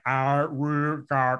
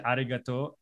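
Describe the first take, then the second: First: Arigato drawn out very slowly and slurred; imitating the wolf's clumsy arigato. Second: Said in the usual way. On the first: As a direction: stretch arigato out slow and mushy like a wolf learning to speak. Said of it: "like, slurs it". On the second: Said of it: "the moment he said".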